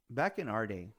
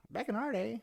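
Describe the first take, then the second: First: Said in the usual way. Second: Put-on pitched way up, teasing old-timer tone; high mock old-timer. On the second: Shown as a demonstration.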